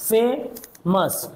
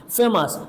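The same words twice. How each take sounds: First: ফেমাস split slowly into ফে and মাস; slow two-beat demonstration of ফেমাস; syllable by syllable. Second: Said in the usual way. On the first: Shown as a demonstration. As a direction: pause in the middle of ফেমাস. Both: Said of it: "কয়েকবার আমাকে থামতে হয়".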